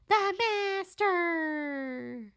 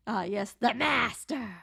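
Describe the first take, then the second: First: High, very slow and drawn out; hammed-up ominous announcement; dramatic villain voice. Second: Said in the usual way. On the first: Shown as a demonstration.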